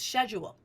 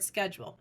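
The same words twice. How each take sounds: First: It is said with a British pronunciation. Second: It is said with an American pronunciation. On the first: It is the form the trainer demands. The speaker calls it right. "it's schedule" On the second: It is the reader's own usual form. The speaker calls it wrong. "she says the word schedule"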